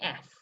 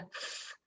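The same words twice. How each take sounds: First: It is said as the letter name, ef. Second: It is said as a pure hissing fff sound. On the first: The speaker calls it wrong. "and not as an f" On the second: The speaker calls it right. "the f is sounded as a f"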